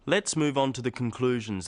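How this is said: The voice stays flat at the end.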